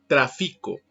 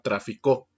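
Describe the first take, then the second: First: The stress is on the second syllable. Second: The stress is on the third syllable. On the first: It is the present verb meaning I trade. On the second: It is the past verb meaning he traded.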